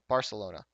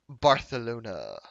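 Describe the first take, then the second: First: It is said in the speaker's plain accent. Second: It is said in a put-on Spanish accent.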